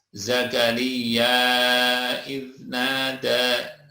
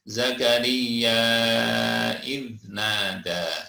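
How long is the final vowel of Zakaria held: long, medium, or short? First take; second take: medium; long. First: The final vowel of Zakaria is held moderately long. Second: The final vowel of Zakaria is held very long. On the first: "atau empat harokat dua alif" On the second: "lima harokat dua setengah alif"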